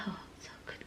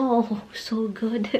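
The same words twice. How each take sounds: First: Breathy whisper of pleasure, barely audible. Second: Mock contented sigh. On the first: Retold or imitated. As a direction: whisper it like a blissed-out old lady. Mother-in-law enjoying head scratch. (pabulong na sarap na sarap) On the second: Sarapan siya.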